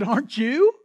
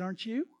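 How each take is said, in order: First: Louder, demanding an answer; preacher pressing the congregation to respond; louder repeat. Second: Said in the usual way. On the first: Shown as a demonstration. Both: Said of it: "I said, "Aren't you?".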